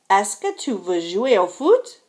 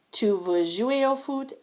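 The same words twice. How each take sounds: First: "foot" rising clearly at the end; question intonation. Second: "Tu veux jouer au foot" at usual pitch, restrained; understated model sentence ending on "foot"; statement read-out. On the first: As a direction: ask it firmly, lifting the voice on "foot". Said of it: "sentences on the right are questions". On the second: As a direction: read "Tu veux jouer au foot" evenly, small lift at the end. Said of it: "sentences on the left are statements". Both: Shown as a demonstration.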